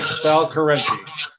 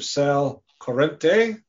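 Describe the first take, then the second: First: The name ends without an 'ay' sound. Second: The name ends with an 'ay' sound. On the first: The speaker calls it right. "It's not an A" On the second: The speaker calls it wrong. "Now you said it wrong"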